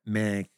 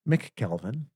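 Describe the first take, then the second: First: The first syllable is reduced to a short 'm'. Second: The first syllable is said fully as 'mick'. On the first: This is how people typically say it. "you don't hear the ick" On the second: This is the technically correct pronunciation. "how does it pronounce then, technically?"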